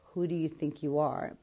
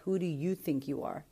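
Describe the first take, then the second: First: It is said as an accusing challenge. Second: It is said as a sincere, curious question.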